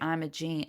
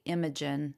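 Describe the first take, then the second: First: "Imogene" with a long "jean" ending; great aunt's pronunciation. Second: "Imogen" with a short unstressed "jen" ending; UK pronunciation. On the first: Giving great aunt's version, "Imogene" with long "jean" ending. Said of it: "but for her". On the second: Comparing name versions, UK "Imogen" with short last syllable. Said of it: "in the U K, they say". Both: Shown as a demonstration.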